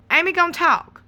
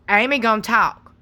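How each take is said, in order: First: "Amy gonna talk." said higher with weight on "gonna"; a pointed repeat; emphatic higher repeat. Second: Said in the usual way. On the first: Acted. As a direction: push "gonna", pitch up. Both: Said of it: "repeated for emphasis".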